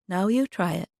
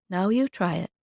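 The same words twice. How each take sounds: Both takes have the same delivery.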